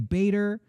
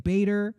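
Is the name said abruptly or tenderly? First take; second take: abruptly; abruptly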